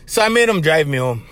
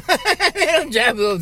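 First: Said in the usual way. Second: Higher, chuckling through the words; laughing. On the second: Real, not acted. Telling how he made Rory drive him home, laughing. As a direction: laugh as you repeat the punchline.

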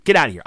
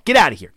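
First: The same order barked, a bit less loud; telling him to leave, insisting; mock angry yell. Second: Mock angry yell. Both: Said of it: "He's like".

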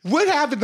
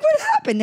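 First: A high startled "What happened?"; shocked friend asking what happened, pitched up; mock shocked. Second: High squeaky "What happened?"; mock shocked. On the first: Retold shocked reaction to crying. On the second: Retelling her disbelief at being dumped, in a high squeak. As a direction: shoot way up in pitch in disbelief. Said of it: "I'm like".

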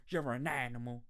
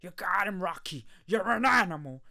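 First: Said in the usual way. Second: Loud, high hype shout from the corner; cheering corner man bellowing encouragement; coach shouting. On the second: Retold or imitated. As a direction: fire him up like a trainer in the corner. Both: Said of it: "It's like".

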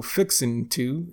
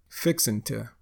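First: Said in the usual way. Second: "to" as tuh after "fixin'". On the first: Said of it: "instead of saying to". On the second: Shown as a demonstration. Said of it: "we'll say to".

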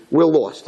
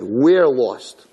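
First: Said in the usual way. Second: "We're" drawn out and emphasized; stress on WE'RE. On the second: Retold or imitated. Girl asks the bride for directions, "We're" heavily stressed. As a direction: lean hard and slowly on "We're". Repeats quote, stressing the word.

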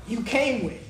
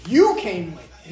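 First: Said in the usual way. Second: "You" punched louder, the phrase slowed down; stress on YOU. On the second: Shown as a demonstration. Arguing it's not the other person's, stress on "You". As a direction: hit "You" hard and slow down.

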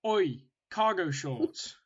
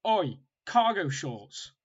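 First: Spiteful jeer. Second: Slow, drawn-out taunt, loud; spiteful jeer. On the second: Mimicking the park kid jeering at his cargo shorts, slow and spiteful. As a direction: sneer it out word by word. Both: Retold or imitated. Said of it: "he said it really spitefully".

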